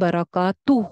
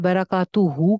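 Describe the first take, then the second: First: The word ends with a silent h. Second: The word ends with a full 'hu' vowel. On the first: The speaker calls it right. "बराकातू हो जाएगा" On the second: The speaker calls it wrong. "बराकातू हु की बजाय"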